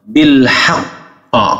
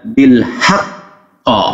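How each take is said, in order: Both takes have the same delivery.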